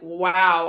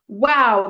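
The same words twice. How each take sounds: First: It sounds disapproving and put off. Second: It sounds amazed and impressed. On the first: The speaker dislikes the thing. "I'm not into that" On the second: The speaker is impressed by the thing. "that's amazing"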